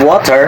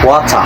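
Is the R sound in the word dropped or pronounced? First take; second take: pronounced; dropped. First: The R sound is pronounced. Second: The R sound is dropped. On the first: "instead of" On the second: "walay R nga word"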